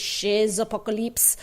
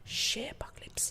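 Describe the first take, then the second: First: A Z sound links shay to apocalypse. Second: The Z is silent after shay. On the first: "the French actually pronounce the Z" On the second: "That's C H E Z, the French way"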